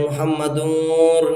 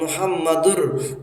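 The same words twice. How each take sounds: First: The ending carries a nasal sound through the nose. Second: The ending is clear with no nasal sound. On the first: The speaker calls it wrong. "मुहम्मदुर नहीं पढ़ रहे हैं" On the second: The speaker calls it right. "साफ साफ पढ़ रहे हैं"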